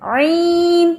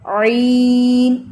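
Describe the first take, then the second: First: عین sent into the nose, higher; wrong nasal عین, higher pitch; nasal عین demo; nasal ain. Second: عین kept in the mouth, slow, not nasal; ain in the mouth. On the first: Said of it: "یہ ناک میں ہے". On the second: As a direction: correct عین drawn slowly in the mouth. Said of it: "یہ منہ کے اندر ہے". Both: Shown as a demonstration.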